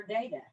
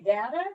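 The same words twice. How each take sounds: First: Data with the vowel of day; long-a data. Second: Data with the vowel of cat; short-a data. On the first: Host offering the other way, data as DAY-tuh. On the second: Host asking which way, data as DAT-uh. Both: Shown as a demonstration. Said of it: "do you say data or data".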